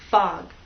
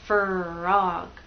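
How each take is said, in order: First: It is rushed and the R disappears. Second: It is drawn out into two syllables. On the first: "If you go too fast, people may not hear R" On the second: "if you go too slowly, you'll get something like frog, two syllables"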